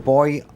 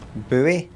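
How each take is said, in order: First: Buoy is said like boy, one syllable. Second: Buoy is said as boo-ee, two syllables.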